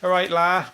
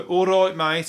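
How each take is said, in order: First: High, loud put-on Liverpool greeting; imitated Scouse voice; Scouse accent. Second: High, loud put-on Birmingham greeting; imitated Brummie voice; Brummie accent. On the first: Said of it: "the Scousers say, la". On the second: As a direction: greet a mate in broad Brummie. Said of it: "for the Brummies".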